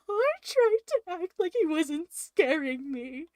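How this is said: It is read in a scared, nervous voice.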